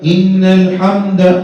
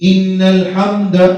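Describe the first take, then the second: Both takes have the same delivery.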